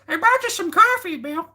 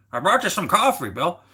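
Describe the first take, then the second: First: Very high, squeaky cartoon imitation; absurdly high-pitched caricature; exaggerated brother-in-law voice. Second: Higher, swooping mock voice for a relative; playful caricature, pitched up; put-on brother-in-law voice. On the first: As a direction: push the mock voice way up into falsetto. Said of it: "that's the way he talks". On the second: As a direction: put on a silly raised voice to imitate your brother-in-law. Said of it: "I like making different voices for people".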